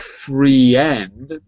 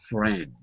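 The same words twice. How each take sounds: First: The word is pronounced the way it is spelled. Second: The word has its normal pronunciation, not the spelled one. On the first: The speaker calls it wrong. "looks like friend, but it's not" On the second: The speaker calls it right. "It's friend"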